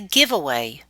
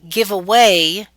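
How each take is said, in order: First: The stress is on the first part. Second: The stress is on the second part. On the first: It is a noun meaning a free item. "or we can say it as a compound noun" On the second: It is a verb meaning to donate. "we can say it as a phrasal verb"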